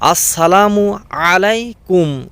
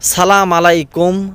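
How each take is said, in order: First: The first word is said in full as assalamu. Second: The first word is shortened to salam. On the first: The speaker calls it right. "আমি বলি" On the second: The speaker calls it wrong. "আমরা এর উচ্চারণ ঠিকভাবে করতে পারি না"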